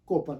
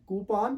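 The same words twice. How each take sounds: First: कोपन said with o as in Hindi, ko-pan; wrong reading. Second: कूपान said koo-pahn with long vowels; correct pronunciation. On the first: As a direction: read कोपन the naive way. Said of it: "कोपन नहीं है". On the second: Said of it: "Actually ये word कूपान है". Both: Shown as a demonstration.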